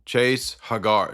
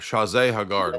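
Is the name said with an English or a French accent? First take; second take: English; French. First: The name is said in a plain English accent. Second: The name is said in a French accent.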